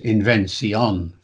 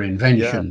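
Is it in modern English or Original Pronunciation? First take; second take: Original Pronunciation; modern English. First: It is in Shakespearean Original Pronunciation. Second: It is in a modern English accent.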